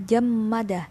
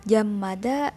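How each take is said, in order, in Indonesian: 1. Setelah suku kata pertama ada m yang dobel. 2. Setelah suku kata pertama ada m yang dobel.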